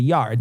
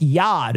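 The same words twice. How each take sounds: First: Said in the usual way. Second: "yod" with the R dropped, Maine style; R-less Maine "yod"; Maine accent. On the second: Shown as a demonstration. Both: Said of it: "instead of yard".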